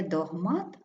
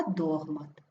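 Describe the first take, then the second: First: Догмат stressed on the second syllable, дог-МАТ; неправильний наголос. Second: Догмат stressed on the first syllable, ДОГ-мат; правильний наголос. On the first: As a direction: put the weight on МАТ in догмат. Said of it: "не догмат". (догмат з наголосом на МАТ) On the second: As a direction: put the weight on ДОГ in догмат. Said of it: "а догмат". (догмат з наголосом на ДОГ) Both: Shown as a demonstration.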